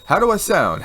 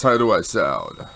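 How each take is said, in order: First: Said in the usual way. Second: Lower, slower put-on voice; different voice. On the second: Shown as a demonstration. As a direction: drop into a lower, slow voice. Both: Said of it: "If I do a different voice".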